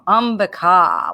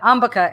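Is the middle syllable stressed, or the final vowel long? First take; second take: final long; middle stressed. First: The final vowel is long. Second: The middle syllable is stressed. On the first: This is the original Sanskrit form. "short A, short I, long A. So Ambika would be the proper" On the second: This is how English speakers say it. "but Ambika is perfect for English speaker"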